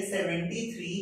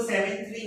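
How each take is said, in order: First: "सेवेंटी थ्री" as one two-digit number; whole-number reading. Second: "सेवन थ्री" as two separate digits; "सेवन" without the -ty ending, then "थ्री"; wrong digit-wise reading. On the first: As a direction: demonstrate "सेवेंटी" with its -ty ending, then "थ्री". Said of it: "इसको हम pronounce करेंगे". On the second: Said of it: "इसको सेवन थ्री नहीं बोलेंगे". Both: Shown as a demonstration.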